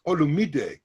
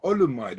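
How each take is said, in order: First: Olumide with four syllables, ending "mee-deh"; correct pronunciation. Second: Olumide ending in "-mide", rhyming with "ride"; wrong pronunciation. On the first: Correcting the teacher on his name, Olumide said with "-mee-deh" ending. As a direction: sound the final e of Olumide as "deh". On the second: Telling the teacher what his name isn't, Olumide anglicised to end like "ride". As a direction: say Olumide with the final e silent. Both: Retold or imitated. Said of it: "His name is not Olumide".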